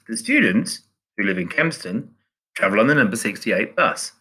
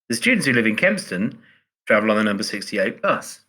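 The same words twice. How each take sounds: First: There are pauses around 'who live in Kempston'. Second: It is said without pauses around the clause.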